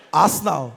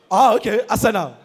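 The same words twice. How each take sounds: First: Low, doubtful query. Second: Put-on "Arsenal" in a Benin accent; Victor Ikpeba. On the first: Acted. Broadcaster checking the pundit's word, low puzzled voice. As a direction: question "Arsenal" in a lowered voice. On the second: Pundit confirming to the broadcaster, Benin-accented "Arsenal". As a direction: say "Arsenal" firmly with three full syllables. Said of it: "the custodian of the Benin accent".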